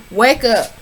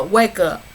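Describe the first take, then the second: First: "Wake up" said louder and firmer; firm, louder wake-up call; louder urging. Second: Said in the usual way. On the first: Real, not acted. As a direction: push harder on "Wake up". Urging the cast member.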